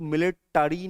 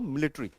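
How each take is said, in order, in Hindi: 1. हर अक्षर बोला जाता है, इसलिए चार अक्षर हुए। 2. बीच का स्वर छोड़ दिया जाता है, इसलिए तीन अक्षर हुए। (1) "आप जब बोलोगे तो मिलिटरी नहीं बोलोगे" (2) "एकदम कूल बनना है"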